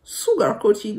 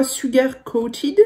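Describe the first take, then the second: First: "Sugar Coated" in a French speaker's English accent; self-conscious English accent, rising at the end; self-mocked English accent. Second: "Sugar Coated" read with a French u in Sugar; tentative "Sugar Coated", French vowels, rising at the end; hesitant French reading. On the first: Shown as a demonstration. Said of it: "mon super accent anglais". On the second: Real, not acted. Reading an unfamiliar brand name aloud.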